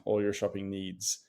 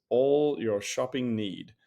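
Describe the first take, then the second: First: "needs" said normally, with a clear final s; "needs" ends on a crisp s; plain. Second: "need" said slowly and flatly, with no final s; slow deadpan read of "All your shopping need"; reading the typo. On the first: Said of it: "I assume they meant". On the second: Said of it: "I assume they meant all your shopping needs". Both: Shown as a demonstration.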